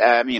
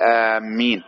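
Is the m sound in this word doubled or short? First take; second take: short; doubled. First: The first vowel is long and the m short. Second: The m sound is doubled and held longer. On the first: The speaker calls it right. "بالمد مع التخفيف" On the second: The speaker calls it wrong. "ولا تقول آمين، لأن آمين معناه قاصدين"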